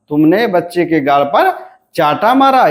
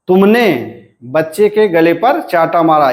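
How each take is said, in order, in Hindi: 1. बलाघात चाटा पर पड़ता है। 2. बलाघात तुमने पर पड़ता है। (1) "यहां पर बलाघात कहां पर है, चाटा पर।" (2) "यानी चाटा मारने वाला बच्चे के गले पर कौन है, तो वह तुमने।"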